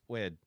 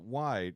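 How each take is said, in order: First: The vowel is flat, like the 'e' in 'wed'. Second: The vowel glides like the 'i' in 'ride'. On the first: The speaker calls it wrong. "it's wed open" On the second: The speaker calls it right. "it's not wide"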